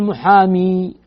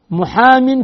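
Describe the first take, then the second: First: محامي drawn out to a long "-ee"; long ya ending. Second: محام ending in a clear "-in"; tanween ending. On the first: Teacher showing what not to say, long ya ending. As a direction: stretch the final ya of محامي, no n sound. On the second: Teacher showing the form without ya, tanween ending. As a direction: say محام with a nunated "-in", no long ya. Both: Shown as a demonstration. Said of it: "ما تقول محامي".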